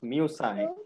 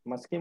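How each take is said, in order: First: The word ends with a 'sigh' sound. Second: The word ends with a 'skee' sound. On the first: The speaker calls it right. "It's musai" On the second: The speaker calls it wrong. "No, no. Muski, muski nahi lagane ka"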